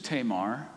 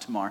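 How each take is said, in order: First: The first vowel is a long A sound. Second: The first vowel is a short A sound. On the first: The speaker calls it wrong. "however you want to pronounce it" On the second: The speaker calls it right. "The long A does not exist in the Hebrew language, so it should be pronounced Tamar"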